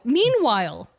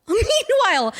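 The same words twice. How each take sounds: First: Said in the usual way. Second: High, sing-out "meanwhile"; dramatic transition. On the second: Real, not acted. Host moving the story on after laughing, "meanwhile" high and theatrical.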